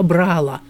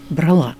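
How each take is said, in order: First: The stress is on the first syllable. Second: The stress is on the last syllable. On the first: The speaker calls it wrong. "обязательно ударение будет на предпоследнем слоге" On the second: The speaker calls it right. "по-русски это невозможно"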